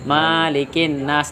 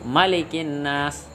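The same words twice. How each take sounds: First: The vowel after the m is held long. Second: The vowel after the m is kept short. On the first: The speaker calls it wrong. "Dah salah itu" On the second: The speaker calls it right. "Yang benar adalah dipendekkan"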